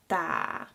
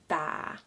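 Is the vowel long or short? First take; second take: long; long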